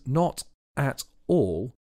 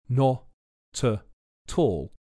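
First: Each word is said separately and distinctly. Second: Consonants run into the following vowels smoothly.

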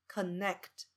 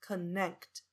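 No difference in how they are said.

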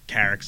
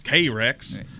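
First: It is said without a Southern American accent. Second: It is said with a Southern American accent. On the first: "Like we say Carex" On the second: "they always pronounce K-Rex"

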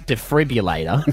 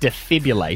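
First: The R sound in the middle is pronounced. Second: The R sound in the middle is dropped. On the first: "it's spelt defibrillator" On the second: "The R is silent"

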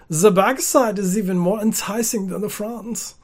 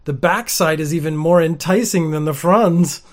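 First: It is read in a creepy German accent. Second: It is read in her normal voice.

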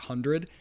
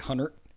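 First: Hundred is said with a plain standard pronunciation. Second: Hundred is said with a South Carolina accent. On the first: "the way they pronounce the word hundred" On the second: "people with their South Carolina accents, ... they say hundred"

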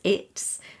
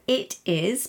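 First: It is said as one contracted syllable. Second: It is said as two full words. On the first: "it is becomes it's" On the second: "it is becomes it's"

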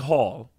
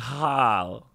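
First: The vowel is closed, sounding close to hole. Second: The vowel is open, in an American way. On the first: "so I say hall" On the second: "Instead of Americans say hall"

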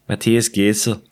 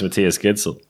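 First: The d in the name sounds soft. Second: The d in the name sounds hard. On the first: The speaker calls it right. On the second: The speaker calls it wrong.

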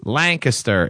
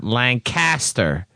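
First: It is pronounced the way locals say it. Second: It is pronounced the way outsiders say it. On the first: The speaker knows the place. The speaker calls it right. "he even gave me a pronunciation" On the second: The speaker is an outsider. The speaker calls it wrong. "Don't be such a tourist"

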